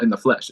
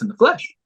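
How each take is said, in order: First: The voice falls at the end like a statement. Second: The voice rises at the end like a question. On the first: This is the title without a question mark. The speaker calls it wrong. "So it's not" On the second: This is the title with a question mark. The speaker calls it right. "One of them has a question mark at the end, and that's the one I'm talking about"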